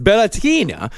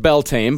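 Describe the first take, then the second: First: "Bellatina" with a stressed "TEE-na" ending; careful foreign-style "Bellatina"; correct pronunciation. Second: "Beltane" said as it is written; plain English reading of "Beltane"; spelling pronunciation. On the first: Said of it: "it's pronounced Bellatina". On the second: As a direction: read "Beltane" off the letters, ending like "tain". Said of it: "it's spelled, it's pronounced". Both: Shown as a demonstration.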